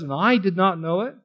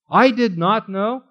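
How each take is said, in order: First: Said in the usual way. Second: "I" leaned on, slow and higher; stress on I. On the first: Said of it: "that last part where it says". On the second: Shown as a demonstration. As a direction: put the emphasis on "I". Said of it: "There's an emphasis on the word".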